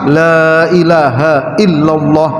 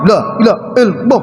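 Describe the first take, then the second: First: The vowel in 'la' is long. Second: The vowel in 'la' is short. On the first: It means 'no', a negation. The speaker calls it right. "la-nya dipanjangkan itu wajib" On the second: It means 'indeed', not a negation. The speaker calls it wrong. "tidak mau"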